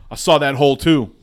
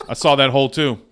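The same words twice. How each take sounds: First: Louder, punched proud brag; bragging at full volume; proud call. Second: Said in the usual way. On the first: Shown as a demonstration. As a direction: shout it like a proud player. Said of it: "repeats line louder". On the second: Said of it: "second take".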